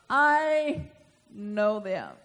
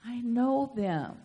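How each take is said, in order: First: I stretched long and loud, then a slow "know them"; slow, weighty stress on "I"; drawn-out emphasis. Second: Said in the usual way. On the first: Shown as a demonstration. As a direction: linger heavily on "I" before finishing "know them". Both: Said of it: "say it with me".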